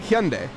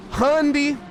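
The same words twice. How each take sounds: First: Hyundai said hyun-DAY, falling and clean; proper Hyundai. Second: Hyundai said HUN-dee, high and drawn out; butchered Hyundai. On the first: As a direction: correct Korean-style Hyundai as hyun-DAY. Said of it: "I pronounce them". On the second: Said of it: "I'm intentionally butchering them". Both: Shown as a demonstration.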